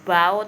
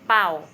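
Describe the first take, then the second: First: The word begins with a b sound. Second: The word begins with a p sound. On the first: The speaker calls it wrong. "ini bukan bacanya bao" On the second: The speaker calls it right. "B-nya jadi p"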